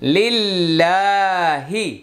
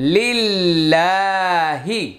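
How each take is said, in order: First: The 'l' in the word sounds light and thin. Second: The 'l' in the word sounds light and thin.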